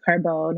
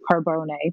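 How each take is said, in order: First: The name is said the English way. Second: The name is said the Italian way.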